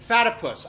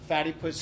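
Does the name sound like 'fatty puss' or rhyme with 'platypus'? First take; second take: platypus rhyme; fatty puss. First: It is said as one word rhyming with platypus. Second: It is said like the two words fatty puss. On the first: The speaker calls it right. "rhymes with platypus, not Fatty Puss" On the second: The speaker calls it wrong. "I've been saying this wrong"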